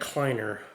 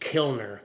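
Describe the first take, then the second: First: The name begins with a 'kly' sound. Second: The name begins with a 'kil' sound. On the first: The speaker calls it wrong. "I was calling it Kleiner" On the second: The speaker calls it right. "but it's actually Kilner"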